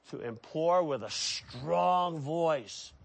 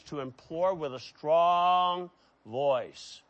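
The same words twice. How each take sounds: First: "strong" held long in an altered, weighty voice; slow repeat, leaning long on "strong"; drawn-out stress on strong. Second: "strong" drawn out long; stress on strong. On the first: Preacher repeating a definition to his congregation, "strong" drawn out. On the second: Preacher defining a Greek word, "strong" held long. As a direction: stretch out "strong" on a sustained note. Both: Shown as a demonstration.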